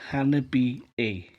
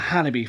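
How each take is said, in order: First: The name ends with an extra final vowel. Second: The name ends without an extra final vowel. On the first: The speaker calls it right. "it turns out it's Hanabi A" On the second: The speaker calls it wrong. "I've been calling them Hanabi for the longest time"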